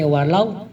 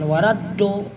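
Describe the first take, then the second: First: The consonant is made with the tongue's side. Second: The consonant is said like a plain d. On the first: The speaker calls it right. "tapi pakai walau ya" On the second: The speaker calls it wrong. "bukan waladdo ya"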